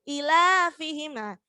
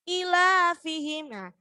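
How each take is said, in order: No difference in how they are said.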